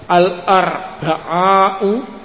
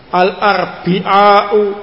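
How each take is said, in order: First: The vowel after the b is a. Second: The vowel after the b is i. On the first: "Al-arba'u boleh" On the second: "al-arbi'u boleh"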